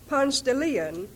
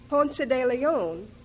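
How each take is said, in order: First: The name is said with American English pronunciation. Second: The name is said with Spanish pronunciation.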